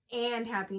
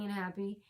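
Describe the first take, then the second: First: "and" set apart from "happy"; clarifying stress on AND. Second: Said in the usual way. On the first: Shown as a demonstration. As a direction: pronounce "and" distinctly so it can't be heard as "un". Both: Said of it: "not unhappy".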